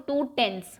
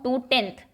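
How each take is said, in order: First: टेंस set apart, ending in a clear s; stress on टेंस. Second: टेंथ set apart, ending in th; stress on टेंथ. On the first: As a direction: contrast टेंस by its final s sound. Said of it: "और टेंस में और टेंथ में". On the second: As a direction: contrast टेंथ by its final th sound. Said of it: "लेकिन अगर मैं कहूँ". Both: Shown as a demonstration.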